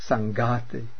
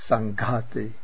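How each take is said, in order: Both takes have the same delivery.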